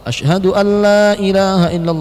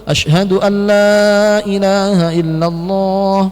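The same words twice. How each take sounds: First: The first 'la' is held moderately long. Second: The first 'la' is drawn out very long. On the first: "sudah betul" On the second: "Yang lebih betul ... panjangkan"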